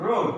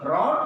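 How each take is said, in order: First: রোড with a rounded, narrow long o; narrowed vowel. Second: রড with an open short o; straight short vowel. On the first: Teacher asks learners to notice, narrowed vowel in রোড. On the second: Teacher asks learners to notice, straight vowel in রড. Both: Shown as a demonstration. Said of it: "ডিফারেন্সগুলো খেয়াল করো".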